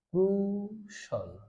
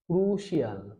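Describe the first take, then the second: First: The ending is one reduced syllable, like 'shul'. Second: The ending is two syllables, like 'shee-al'. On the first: The speaker calls it right. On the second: The speaker calls it wrong.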